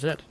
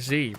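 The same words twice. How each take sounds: First: The letter is said 'zed', British style. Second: The letter is said 'zee', American style.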